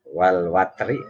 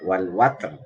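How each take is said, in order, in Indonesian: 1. Kata ini tersambung dengan r yang tipis dan ringan. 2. Kata ini berhenti dengan r yang tebal dan penuh. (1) "Ro tarkik kalau dibaca sambung" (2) "ro tafkhim kalau dibaca waqaf"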